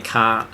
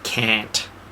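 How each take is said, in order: First: It is said with an Australian-style vowel. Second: It is said with an American-style vowel. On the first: This is how Australians actually say the word. The speaker calls it right. "We say can't" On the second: This is how Americans wrongly imitate the word. The speaker calls it wrong. "The Americans don't get that we don't say can't"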